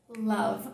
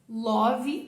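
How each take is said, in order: First: The vowel matches the vowel in thunder. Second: The vowel differs from the vowel in thunder. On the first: The speaker calls it right. "Aqui é love. Mesmo som de thunder" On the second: The speaker calls it wrong. "Love, não. Love é só na música"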